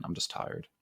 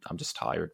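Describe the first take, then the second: First: Whispered, much softer and lower; real tired whisper. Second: Said in the usual way. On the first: Real, not acted. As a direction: let it fade into a breathy whisper of fatigue. Repeated tired confession, whispered.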